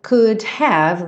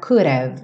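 First: Both words are said fully and separately. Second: The words are contracted into one reduced form.

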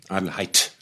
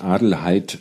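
First: The final T is crisp and pronounced. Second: The final T is soft and unstressed.

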